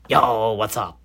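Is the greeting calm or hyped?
hyped. It is said in an excited, hyped way.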